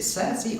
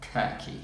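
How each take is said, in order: First: Circe with S sounds for both Cs; "Circe" said with soft, hissed Cs; soft-C pronunciation. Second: Kirky with hard K sounds; "Kirky" with a K starting both syllables; hard-K pronunciation. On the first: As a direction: say "Circe" as SUR-see. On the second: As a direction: say "Kirky" as KUR-kee. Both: Shown as a demonstration. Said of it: "Is it Circe or Kirky?".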